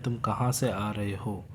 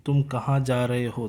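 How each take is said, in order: First: "तुम कहाँ से आ रहे हो" let down slightly lower and softer; completed-sentence intonation. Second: "तुम कहाँ जा रहे हो" asked with the tone kept slightly raised; question intonation. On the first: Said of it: "हमारा इंटोनेशन थोड़ा धीमा होता". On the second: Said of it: "tone जो है वो थोड़ा हाई रहता है". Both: Shown as a demonstration.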